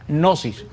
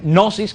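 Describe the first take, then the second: First: The word starts with a sounded g before n. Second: The word starts with an n sound, no g. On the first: The speaker calls it right. "sino gnosis" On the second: The speaker calls it wrong. "pero no es gnosis con N"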